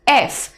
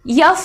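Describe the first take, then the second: First: The letter name starts with a plain vowel. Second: The letter name starts with a y sound. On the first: The speaker calls it right. "ये एफ है" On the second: The speaker calls it wrong. "यफ नहीं है ना"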